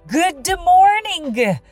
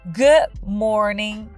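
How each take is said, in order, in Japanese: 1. dとgの音は、しっかり発音されます。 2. dとgの音は、消えます。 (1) "とは発音せず" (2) "good のd とmorning のg は発音しない"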